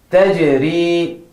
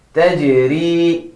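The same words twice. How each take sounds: The two takes are said the same way.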